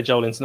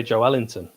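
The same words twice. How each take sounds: First: Joelinton run together as JOLE-in-ton; rejected pronunciation. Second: Joelinton split as Jo-ELL-inton; preferred pronunciation. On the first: Pundit shows what he avoids, Joelinton as JOLE-in-ton. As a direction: say Joelinton in three syllables, JOLE first. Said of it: "I don't say Joelinton". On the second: Pundit defends his version, Joelinton as Jo-ELL-inton. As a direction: say Joelinton with a separate ELL in the middle. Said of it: "I say Joelinton". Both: Shown as a demonstration.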